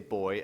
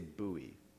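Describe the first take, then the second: First: It is said with a British pronunciation. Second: It is said with an American pronunciation. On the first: The speaker calls it right. "We say buoy" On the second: The speaker calls it wrong. "Americans say buoy"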